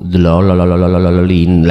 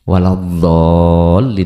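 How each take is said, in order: First: The middle syllables are stumbled over in a rolling stutter. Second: The word is articulated cleanly and precisely.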